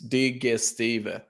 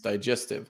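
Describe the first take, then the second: First: It is pronounced the Swedish way. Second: It is pronounced the English way. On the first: "we read the name in Swedish" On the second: "it's an English name"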